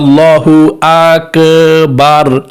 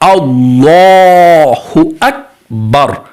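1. 'l'-এর সিলেবলের বাইরের স্বরধ্বনিগুলোও দীর্ঘ করা হয়। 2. শুধু 'l'-এর পরের স্বরধ্বনিটি দীর্ঘ করা হয়। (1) "আর যদি ভুল বলেন তাহলে হবে না, এভাবে বলে" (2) "লামের মধ্যে টান"

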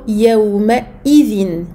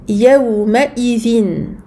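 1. La hamza avant izin est clairement prononcée. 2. La hamza avant izin est clairement prononcée.

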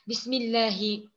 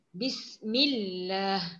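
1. Kata ini berakhir dengan vokal setelah h. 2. Kata ini berakhir pada h tanpa vokal. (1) "barisnya tidak perlu diucapkan" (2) "Tetap berbunyi H, tapi barisnya tidak perlu diucapkan"

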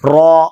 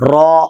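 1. 'ரா' எழுத்து உதடுகளை வட்டமாக வைத்துக் கனமாகச் சொல்லப்படுகிறது. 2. 'ரா' எழுத்து உதடுகளை வட்டமாக வைத்துக் கனமாகச் சொல்லப்படுகிறது.

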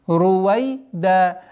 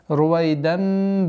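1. Слово заканчивается на удлинённый гласный без «н». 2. Слово заканчивается на звук «н», который связывается со следующим словом. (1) "При остановке аннулируется танвин... в размере двух огласовок. Здесь удлинение" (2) "для слитного произношения со следующей сурой"

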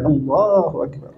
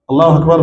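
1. Il est prononcé lentement et avec soin. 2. Il est prononcé rapidement et sans soin.

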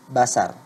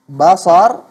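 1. Bunyi s-nya tipis dan biasa. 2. Bunyi s-nya tebal dan emfatis. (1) "huruf sad berganti menjadi sin" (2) "huruf sad"

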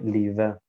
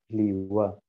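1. Der mittlere Konsonant nutzt Zähne und Lippe. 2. Der mittlere Konsonant nutzt nur beide Lippen. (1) "Bei den Türken, die sagen Liwe. Das ist falsch" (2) "Indem wir die Lippen benutzen und nicht die Zähne"

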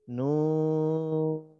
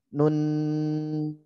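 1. Vokal u dibaca panjang. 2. Vokal u dibaca pendek. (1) "Jadi yang dipanjangin huruf U-nya" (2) "Jadi bukan nun"

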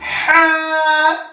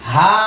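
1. এটা চাপা, গলার ভেতর থেকে ভারী 'ha' শব্দে বলা হয়। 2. এটা সাধারণ, হালকা 'ha' শব্দে বলা হয়। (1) "চাপ দিয়া" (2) "এটা বিলকুল গলত, হা হবে না"

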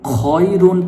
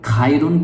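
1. প্রথম স্বরধ্বনিটি 'o' এর মতো শোনায়। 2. প্রথম স্বরধ্বনিটি 'a' এর মতো শোনায়। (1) "খয় রুন পড়তে হবে" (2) "খাইরুন পড়লে হবে না ভাই"

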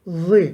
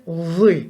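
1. Ünsüz peltek, sesli th gibidir. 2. Ünsüz peltek, sesli th gibidir.

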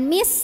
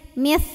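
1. Diawali bunyi s yang mendesis biasa. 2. Diawali bunyi th, lidah terselip di antara gigi. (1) "Jangan mis, jangan huruf sin ya" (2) "tapi mis, mis, gigit"

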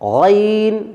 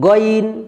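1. শব্দটি গলার ধ্বনি দিয়ে শুরু হয়, 'g' নেই। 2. শব্দটি শক্ত 'g' ধ্বনি দিয়ে শুরু হয়।

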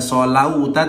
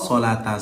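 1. Vokal tengahnya bunyi au yang meluncur. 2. Vokal tengahnya a panjang biasa. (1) "bukan solauta" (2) "tapi bako solata, seperti itu"

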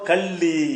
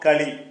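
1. நடுவில் உள்ள மெய்யெழுத்து இரட்டிப்பாகவும் அழுத்தமாகவும் உள்ளது. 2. நடுவில் உள்ள மெய்யெழுத்து குறுகியதாகவும் இலகுவாகவும் உள்ளது. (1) "அந்த இல்ல அழுத்தி செய்யறோம்ல" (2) "சொன்னது களி"

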